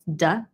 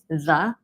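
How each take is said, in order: First: The word begins with a hard D sound. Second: The word begins with a soft TH sound. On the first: "Hong Kongers will make a D instead for that sound" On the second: "the one in the"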